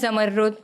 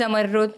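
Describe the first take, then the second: First: It has a doubled, held 'rr' sound. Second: It has a doubled, held 'rr' sound.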